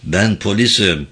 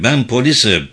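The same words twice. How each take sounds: First: Said in the usual way. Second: Only slightly raised, firm statement; mildly raised officer's voice. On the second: A narrator's reading. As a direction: state it firmly over her protests. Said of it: "dedi Yuna sesini yükselterek".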